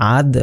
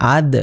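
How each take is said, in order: The two takes are said the same way.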